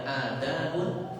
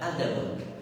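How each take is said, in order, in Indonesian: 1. Vokal pertama dibaca panjang. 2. Vokal pertama dibaca pendek. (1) "ada yang panjang" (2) "ada yang pendek"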